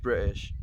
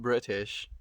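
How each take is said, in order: First: "British" with the middle t dropped; "British" the British way, glottal stop for the t; British accent pronunciation. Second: "British" with the middle t sounded; "British" carefully pronounced as Bri-tish; contrasted pronunciation. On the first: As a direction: say "British" as Bri'ish. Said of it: "He's just British". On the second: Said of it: "He's not British". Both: Shown as a demonstration.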